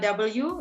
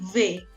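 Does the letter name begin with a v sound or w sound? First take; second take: w sound; v sound. First: The letter name begins with a w sound. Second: The letter name begins with a v sound. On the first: The speaker calls it wrong. "W biasanya kita bilang uh, W, itu nggak bisa" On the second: The speaker calls it right. "Di bahasa Jerman bukan W, tapi V"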